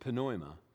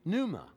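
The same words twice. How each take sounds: First: The word is pronounced the Greek way. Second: The word is pronounced the English way. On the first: "in Greek is pneuma" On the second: "in English pronunciation it would be pneuma"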